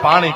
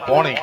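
First: The first vowel is an open 'aa' sound. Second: The first vowel is a rounded 'o' sound. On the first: This is the standard Gujarati form. "એને ગુજરાતી ભાષામાં પાણી કહી" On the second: This is the North Gujarat dialect form. "ઉત્તર ગુજરાતમાં આને પોણી કહે"

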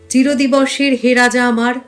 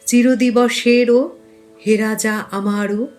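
First: Word endings are cut off without a vowel. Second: Word endings carry an added final 'o' vowel. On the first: The speaker calls it wrong. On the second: The speaker calls it right.

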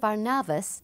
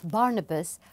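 First: The name is said the local Cypriot way. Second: The name is said the usual English way.

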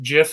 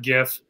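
First: It starts with a soft G, like gin. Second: It starts with a hard G, like gift. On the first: The speaker calls it right. "I come from the school of gin starts with a soft G. GIF is pronounced GIF" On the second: The speaker calls it wrong. "and not GIF"

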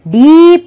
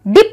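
First: The vowel is drawn out long. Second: The vowel is said short. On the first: The speaker calls it right. "हम ई का जो sound है वो थोड़ा लंबा खींचते हैं" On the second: The speaker calls it wrong. "लेग की तरह डिप नहीं बोलते"

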